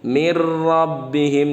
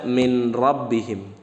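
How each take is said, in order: First: The n merges fully into the following r. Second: The n is pronounced separately before the r. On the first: The speaker calls it right. "nunnya melebur dengan huruf ro" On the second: The speaker calls it wrong. "jangan dibaca min rabbihim"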